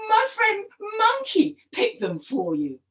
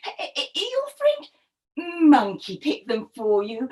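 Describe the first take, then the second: First: Higher-pitched, eager storybook husband; higher voice, falling at the end; explaining crocodile husband. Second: Suspicious wife, ending "for you?" on a rise; suspicious echoed question. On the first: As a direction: offer it as a plain, happy explanation. Husband proudly explains the gift. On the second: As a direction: stammer in, then rise on "you?". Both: Acted.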